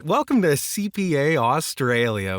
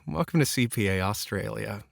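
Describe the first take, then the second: First: It sounds super bright and overly cheerful. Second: It sounds subtly friendly with a light smile.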